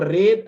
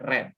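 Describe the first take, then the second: First: The vowel is long, like 'reed'. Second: The vowel is short, like 'red'. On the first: It is the present form. "bentuk pertama" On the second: It is the past participle form. "sampai ke ketiga"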